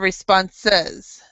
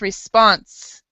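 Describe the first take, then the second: First: The final syllable is clearly pronounced. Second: The final syllable is swallowed and left out. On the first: The speaker calls it right. "instead of" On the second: The speaker calls it wrong. "it's basically being swallowed. So you read you read it like this"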